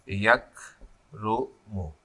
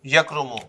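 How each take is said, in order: First: "یکرمو" very slow, lower and softer, paused between syllables. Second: Said in the usual way. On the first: Shown as a demonstration. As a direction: dictate "یکرمو" in separated, drawn-out pieces as you write. Dictating while writing the word.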